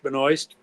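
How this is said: The name is said with an English pronunciation. "English Benoist"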